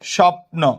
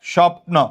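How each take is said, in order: No difference in how they are said.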